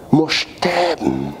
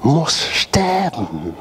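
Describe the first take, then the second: First: Said in the usual way. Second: Slow, breathy whisper of the phrase. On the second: Real, not acted. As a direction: drop to an intense whisper. Preacher repeats key phrase. (langsam geflüstert)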